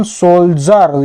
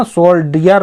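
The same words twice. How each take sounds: First: सोल्जर said with a "z/j" sound; सोल्जर with "zar" for the ending; correct pronunciation demo. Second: सोल्डियर said with a hard "d"; सोल्डियर with "di-yar" for the ending; wrong pronunciation demo. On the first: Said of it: "ज पढ़ रहे हैं ना". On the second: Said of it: "सोल्डियर नहीं पढ़ रहे हैं". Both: Shown as a demonstration.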